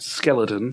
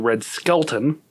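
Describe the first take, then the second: First: The surname is said with three syllables. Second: The surname is said with two syllables. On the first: The speaker calls it wrong. "and not Skeleton" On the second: The speaker calls it right. "that would be Red Skelton"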